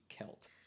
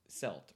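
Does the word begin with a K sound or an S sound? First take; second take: K sound; S sound. First: The word begins with a hard K sound. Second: The word begins with a soft S sound. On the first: This is the newer pronunciation of the word. "they started saying with a hard C" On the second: This is the older pronunciation of the word. "before about 1900, it was always pronounced Celt"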